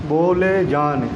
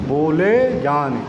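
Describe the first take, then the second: The two takes are said the same way.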